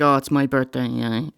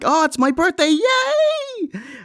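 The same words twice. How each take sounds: First: It is said flatly, without enthusiasm. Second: It is said with excited enthusiasm.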